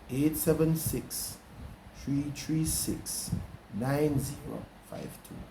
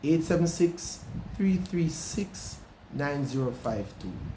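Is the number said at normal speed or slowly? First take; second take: slowly; normal speed. First: The number is said slowly. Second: The number is said at normal speed.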